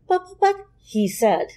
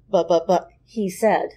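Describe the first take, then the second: First: It is voiced as a female character. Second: It is voiced as a male character.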